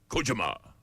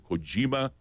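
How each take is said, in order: First: The name is said with a Japanese accent. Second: The name is said with a plain English accent. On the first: "or if you're really Japanese" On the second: "So Kojima"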